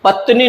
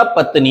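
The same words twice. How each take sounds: First: पत्नी ending short, pat-ni or pat-ne; wrong pronunciation. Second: पत्नी ending in long ee, pat-nee; correct pronunciation. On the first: Teacher showing the mistake, पत्नी said with a short weak ending. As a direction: weaken the last vowel of पत्नी. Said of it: "नहीं होता". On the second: Teacher giving the known form, पत्नी said as pat-nee. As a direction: hold the final ee of पत्नी. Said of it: "ये तो सबको पता होगा". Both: Shown as a demonstration.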